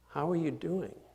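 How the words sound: It is said as a sincere, genuine question.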